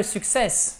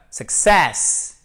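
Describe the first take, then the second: First: "success" the French way, "suk-sess" with a French U; French mispronunciation demo. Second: "success" with reduced first vowel, strong long SESS; stress on second syllable. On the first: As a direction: show the mistake: "success" as French "succès" with final S sounded. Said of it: "Ce n'est pas le success". (« success » mal dit, à la française) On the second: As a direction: model "success" slowly, punch the ending. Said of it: "c'est l'accent tonique qui est sur cette seconde syllabe". (« success » accentué sur la seconde syllabe) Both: Shown as a demonstration.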